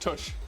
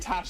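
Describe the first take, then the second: First: The vowel sounds like the one in push. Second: The vowel sounds like the one in cash. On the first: The speaker calls it wrong. "it was saying it wrong in my head. I was saying Tush" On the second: The speaker calls it right. "I was saying Tash abbreviated"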